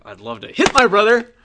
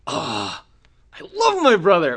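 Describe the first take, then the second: First: Loud, high mock aggression; itching to hit. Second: High, loud swoon over a brother; gushing affection. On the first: Fed-up sibling talking about a brother, mock aggressive. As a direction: burst out on "hit" with pent-up sibling frustration. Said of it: "Or is it like". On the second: Acted. Doting sibling asked about a brother, gushing affection. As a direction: gush it with a drawn-out "love". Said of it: "Do you love them? Like, are you like".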